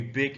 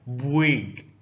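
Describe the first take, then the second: First: Said in the usual way. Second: "big" said drawn out as "bwig"; U inserted. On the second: Shown as a demonstration. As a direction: slip a U into "big", stretching it to bwiiig. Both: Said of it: "put the letter U in the middle".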